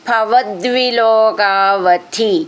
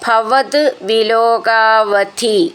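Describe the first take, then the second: First: The two words run together as one word. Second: The two words are said as separate words.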